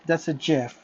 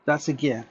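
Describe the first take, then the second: First: "gif" starting like the j in "jet". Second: "gif" starting with a hard g sound. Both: Shown as a demonstration. Contrasting two pronunciations of gif.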